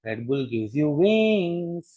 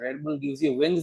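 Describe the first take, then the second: First: The vowel in wings is stretched out long. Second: The vowel in wings is short and plain. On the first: The speaker calls it right. "હવે એડવર્ટાઇઝમેન્ટમાં પણ એમ બોલે છે" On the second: The speaker calls it wrong. "નહીં"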